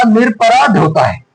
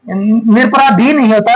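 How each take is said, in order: First: निरपराध closed on "dh", no final ee; correct form. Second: निरपराधी ending in a clear long "dhee"; wrong form. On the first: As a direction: end निरपराध firmly as "nir-aparaadh". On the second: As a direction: sound the extra final ee of निरपराधी. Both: Shown as a demonstration.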